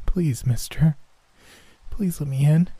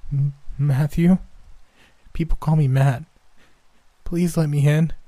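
First: Put-on high pleading little boy; begging child. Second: Put-on high, scared child voice; pleading little boy. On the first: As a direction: beg like a freezing child. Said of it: "as he begged me for help". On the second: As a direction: beg to be let in. Boy answers, pleading at window.

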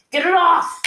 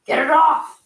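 First: Even higher, louder frantic yell; desperate bellow, pitch climbing. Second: Higher, louder panicked yell; frantic bellow, get it off me. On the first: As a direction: scream it as the panic peaks. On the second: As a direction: roar it while a lemur claws at your face. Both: Acted. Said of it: "Zhao bellowed".

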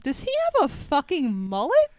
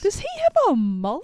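First: Said in the usual way. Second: Disbelieving. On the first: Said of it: "And I'm like". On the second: Real, not acted. Host asks about mullet.

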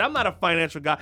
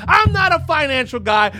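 First: Said in the usual way. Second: Yelled much higher and louder; comic shout. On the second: Acted. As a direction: bellow the disclaimer in mock alarm. Comic rant, escalating shout.

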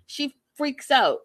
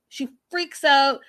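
First: Said in the usual way. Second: "She freaks out." said louder and slower, leaning on "out"; stressed repeat. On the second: Shown as a demonstration. Telling viewers Jasmine lost it, pressing the point louder. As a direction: hit the words harder on the repeat.

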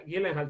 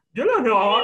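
First: Said in the usual way. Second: Gyllenhaal in exaggerated Swedish, like "YUL-en-hol"; Swedish pronunciation. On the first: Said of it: "no se pronuncia Gyllenhaal". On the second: Shown as a demonstration. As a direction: say Gyllenhaal louder, with rounded Swedish "o" sounds. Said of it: "se pronuncia Gyllenhaal".

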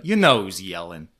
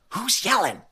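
First: Lower, offhand reply; blousy and casual. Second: High, light startled voice; high-pitched query. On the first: Imitating Kathy used to yelling at home, casual offhand reply. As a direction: shrug it off, low and casual. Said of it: "how blousy and casual Kathy is". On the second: Imitating Teresa hearing screams off screen, high bewildered query. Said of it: "the contrast in the timbre". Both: Retold or imitated.

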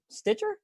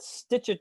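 First: "Stitcher?" with a steep, high questioning rise. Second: Said in the usual way. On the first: Shown as a demonstration. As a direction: ask "Stitcher?" unsure of the name.

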